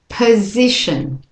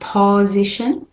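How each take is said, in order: First: The first vowel is a weak schwa. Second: The first vowel is a full vowel. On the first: The speaker calls it right. "That O is a schwa" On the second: The speaker calls it wrong. "So I'm not saying position"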